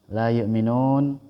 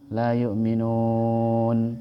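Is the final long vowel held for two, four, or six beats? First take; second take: two; four. First: The long vowel is held for two beats. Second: The long vowel is held for four beats. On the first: "Dua harokat"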